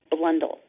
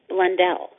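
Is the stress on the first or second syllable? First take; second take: first; second. First: The stress is on the first syllable. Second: The stress is on the second syllable. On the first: "in the UK, it's pronounced Blundell" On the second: "The accent is on the second syllable"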